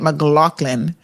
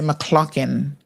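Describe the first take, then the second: First: The name is said with a G sound. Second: The name is said without a G sound. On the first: "they don't say McLaughlin" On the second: "they say McCloughan. So they don't say the G"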